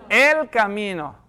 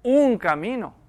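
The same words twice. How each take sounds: First: "El" stretched out slowly, leaning on it; slow, emphatic "El" before "camino"; stress on EL. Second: "Un" singled out as the rejected word; drawn-out "Un", set apart for contrast; stress on UN. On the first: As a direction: hit and hold the word "El". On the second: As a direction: lean on the article "Un". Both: Shown as a demonstration. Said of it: "No dijo".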